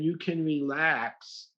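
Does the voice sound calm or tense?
calm. It is said in a soft, soothing voice. The listener is reassured. The speaker calls it right. "and saying it that way"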